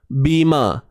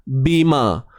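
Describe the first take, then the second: Both takes have the same delivery.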